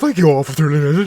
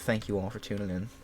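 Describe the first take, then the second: First: It is said in a silly put-on voice. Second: It is said in his normal speaking voice.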